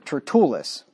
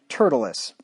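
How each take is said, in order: First: The stress is on the second syllable. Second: The stress is on the first syllable.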